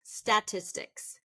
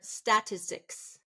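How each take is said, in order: First: The stress is on the first syllable. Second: The same.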